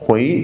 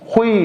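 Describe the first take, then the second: First: The pitch rises on the syllable. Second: The pitch falls on the syllable. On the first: It means a time, as in once. "सेकंड tone के साथ हुई" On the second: It means can or be able to. "ये है falling tone के साथ"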